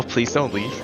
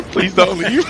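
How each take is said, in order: First: Said in the usual way. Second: High whiny plea for "leave"; mock pleading. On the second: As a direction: beg in a high, pleading whine.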